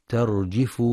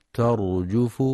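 First: ترجف said with a kasra on the jeem, terjif; wrong reading. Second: ترجف with a rounded damma on the jeem; correct reading. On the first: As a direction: mispronounce ترجف with an i sound. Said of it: "فيقرأ ترجف بكسر الجيم". (ترجف بكسر الجيم خطأً) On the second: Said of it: "لضم الجيم". (ترجف بضم الجيم) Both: Shown as a demonstration.

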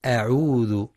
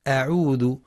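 First: "أعوذ" with a firm, thin glottal onset; clear light hamza. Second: "أعوذ" with a thickened opening hamza; heavy hamza. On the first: Teacher modelling the correct start, "أعوذ" with clear light hamza. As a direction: articulate the hamza of "أعوذ" distinctly, without heaviness. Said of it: "لتحقيق همزة القطع". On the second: Teacher showing a common mistake, "أعوذ" with heavy hamza. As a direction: make the first vowel of "أعوذ" heavy. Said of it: "بتفخيم همزة". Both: Shown as a demonstration.

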